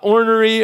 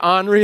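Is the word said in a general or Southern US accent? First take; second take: general; Southern. First: It is said in a general American accent. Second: It is said in a Southern US accent.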